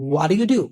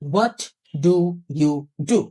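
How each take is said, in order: First: The words run together with sounds dropped. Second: Every word is said fully and separately. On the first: "American এটাকে বলে হোয়াট ইউ ডু" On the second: "এটাকে আমরা বাংলাদেশিরা কি বলি?"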